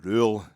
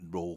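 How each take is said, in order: First: The name is said with an 'oo' vowel. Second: The name is said with an 'oh' vowel. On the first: The speaker calls it right. "we realised, of course, it's Danny Rule" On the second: The speaker calls it wrong. "you get the pronunciation of roll"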